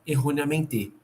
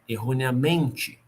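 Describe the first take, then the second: First: The stress is on the last syllable. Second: The stress is on the second-to-last syllable. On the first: "E se ela fosse oxítona" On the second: "Se ela fosse paroxítona"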